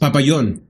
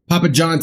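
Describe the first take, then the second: First: It is said with a Spanish pronunciation. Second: It is said with an English pronunciation.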